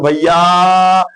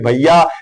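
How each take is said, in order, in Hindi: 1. अंतिम स्वर बहुत लंबा खींचकर बोला जाता है। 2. अंतिम स्वर सामान्य लंबाई में बोला जाता है। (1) "अगर आपसे दूर है तो आप कहते हो" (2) "बगल ही आपके बैठे हैं तो आप कहोगे"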